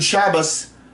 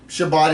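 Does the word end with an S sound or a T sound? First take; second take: S sound; T sound. First: The word ends with an S sound. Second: The word ends with a T sound. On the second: "It ends in a tav"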